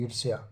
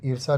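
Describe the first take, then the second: First: ईर्ष्या with a y-glide, ending -sya; correct pronunciation. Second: ईर्षा ending in plain -sa, no y; wrong pronunciation. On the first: Teacher gives class the correction, ईर्ष्या with y-glide. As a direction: sound the half s joined to ya in ईर्ष्या. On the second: Teacher rejects the misspelling, ईर्षा without y-glide. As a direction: drop the y from ईर्षा. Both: Shown as a demonstration. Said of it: "ईर्षा नहीं होता".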